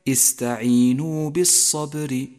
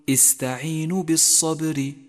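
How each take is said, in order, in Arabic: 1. يُمَدّ حرف المد مدّه الكامل. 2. يُقصَر حرف المد ويُنطق قصيرًا. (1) "والصواب كما قلت لك استعينوا بالصبر" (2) "احذر من بتر حرف المد ... فخطأ أن تقول استعينوا بالصبر"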